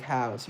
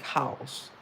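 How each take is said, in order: First: Said in the usual way. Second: "house" in the royal British accent; royal pronunciation. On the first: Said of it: "you wouldn't say things like house". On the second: Shown as a demonstration. Explaining royal speech to viewers, "house" in a royal accent. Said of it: "you would say things like house".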